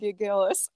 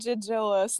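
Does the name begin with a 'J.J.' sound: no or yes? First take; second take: no; yes. First: The name does not begin like J.J. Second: The name begins like J.J. and ends like chinchilla. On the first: The speaker calls it wrong. "not Gigillas" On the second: The speaker calls it right. "it's called Gigillas, ... It's like J.J. Allen and Chinchilla"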